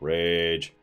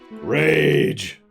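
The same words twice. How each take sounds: First: It is said flatly, without emotion. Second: It is said with strong emotion.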